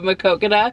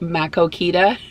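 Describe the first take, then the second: First: The name is said the local way. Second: The name is said the outsider way. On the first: This is how the town's name is actually said. The speaker calls it right. "which is how you say this town's name" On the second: Out-of-town drivers say it this way. The speaker calls it wrong. "they would say them wrong"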